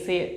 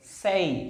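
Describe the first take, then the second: First: The vowel is a plain 'eh' without a glide. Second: The vowel glides from 'e' to 'ee'. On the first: The speaker calls it wrong. "से नहीं" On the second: The speaker calls it right.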